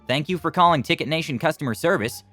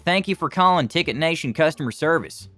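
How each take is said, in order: First: It is said in a general American accent. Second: It is said in a heavy Southern accent. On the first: "fairly average American accent with a bit of Texan mixed in" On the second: "when I was little I spoke like them"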